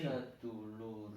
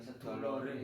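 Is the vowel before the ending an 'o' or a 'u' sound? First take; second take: u; o. First: The vowel before the ending is 'u'. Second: The vowel before the ending is 'o'. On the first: The speaker calls it right. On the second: The speaker calls it wrong.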